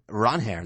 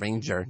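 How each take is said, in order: First: The middle consonant is an H sound. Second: The middle consonant is a J sound. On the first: This is how the player's name is actually pronounced. The speaker calls it right. "the pronunciation" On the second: This is the default English reading of the spelling. The speaker calls it wrong. "it's spelled Ranger, the way we would just read on by default"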